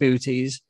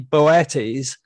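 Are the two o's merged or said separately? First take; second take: merged; separately. First: The two o's merge into one long oo. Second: The two o's are said as separate vowels. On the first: "I call it booties" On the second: "It should more correctly be Boetes"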